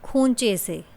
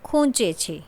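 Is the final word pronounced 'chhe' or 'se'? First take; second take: se; chhe. First: The final word is pronounced with an 's' sound. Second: The final word is pronounced with a 'chh' sound. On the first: This is the local dialect form. "સ્થાનિક બોલી તો છ ને બદલે સ" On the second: This is the standard language form. "શુદ્ધ ગુજરાતીમાં"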